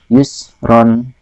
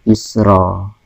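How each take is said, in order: First: The word ends with an added n sound. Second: The word ends on a plain vowel. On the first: The speaker calls it wrong. "bukan yusron, bukan dibaca yusron" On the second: The speaker calls it right. "karena bertemu dengan wakof atau harus berhenti, maka bacanya adalah yusro"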